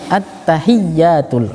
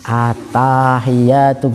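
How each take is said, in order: First: The vowel after the 't' is kept short. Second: The vowel after the 't' is drawn out long. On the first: The speaker calls it right. "Yang benar" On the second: The speaker calls it wrong. "kayak anak-anak T P A kalau itu at-tahiyatu gitu"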